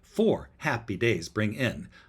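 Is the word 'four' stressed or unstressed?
stressed. The word four is stressed. The speaker calls it right. "I think we need a stress on four"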